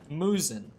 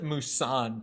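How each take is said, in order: First: The name rhymes with Susan. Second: The name does not rhyme with Susan. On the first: The speaker calls it right. "It's supposed to be Musin. You know, like, like Susan" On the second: The speaker calls it wrong. "she says it Musan"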